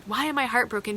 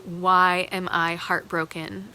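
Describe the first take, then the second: First: Higher, "I" punched, falling tune; emphatic repeat pushing on "I"; stress on I. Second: Slow, WHY leaned on, tune rising; slow rhetorical question, WHY weighted; stress on WHY. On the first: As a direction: answer yourself, hitting the "I". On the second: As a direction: ask "Why" slowly as a real question. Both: Real, not acted. Rhetorical question asked twice.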